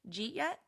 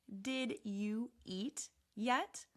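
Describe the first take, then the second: First: The first three words merge into one syllable. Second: Every word is said fully and separately. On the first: "Real spoken English" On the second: "Textbook English"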